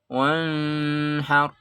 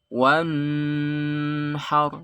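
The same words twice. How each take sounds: First: The n is muffled and indistinct. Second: The n is held and drawn out long. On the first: "Enggak boleh dibaca samar" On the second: "Atau dilama-lamakan"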